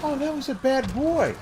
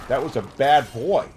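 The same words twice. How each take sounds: First: High, sing-song voice to a dog; much higher doggy-praise voice; sweet high praise tone. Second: Firm, louder scolding of a dog; stern scolding. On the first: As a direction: coo it like praising a puppy. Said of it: "your inflection is more important than what you say". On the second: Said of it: "if you say". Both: Shown as a demonstration.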